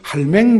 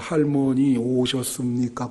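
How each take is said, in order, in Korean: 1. 짧게 줄인 사투리 형태입니다. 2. 표준어로 된 길고 온전한 문장입니다. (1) "그거 딱 세 마디로" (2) "이거 얼마나 길어요?"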